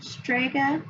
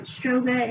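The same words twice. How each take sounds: First: Said in the usual way. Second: "stroga" with an O sound in the first syllable; misreading it as "stroga"; misread word. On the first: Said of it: "instead of strega". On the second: Retold or imitated. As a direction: say "stroga", an O where the A belongs. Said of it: "he used the word stroga".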